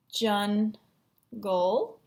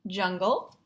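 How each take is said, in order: First: JUNGLE drawn out as jun, long pause, gol; split into syllables. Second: Said in the usual way. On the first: Shown as a demonstration. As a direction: say JUNGLE in two separate chunks. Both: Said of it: "looking for the syllable chunks".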